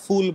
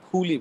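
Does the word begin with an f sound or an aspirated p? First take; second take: f sound; aspirated p. First: The word begins with a soft f sound. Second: The word begins with an aspirated p sound. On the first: The speaker calls it wrong. "সচরাচর আহ, ফুল বলি না" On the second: The speaker calls it right. "ফুলই বলি"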